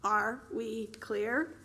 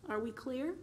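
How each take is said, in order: First: "Are we clear?" drawn out slowly, each word weighed; slow, deliberate threat; slow repeat. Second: Said in the usual way. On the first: Acted. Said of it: "he asked again". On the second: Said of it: "pleasant, conversational tone".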